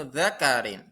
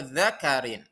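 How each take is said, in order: Both takes have the same delivery.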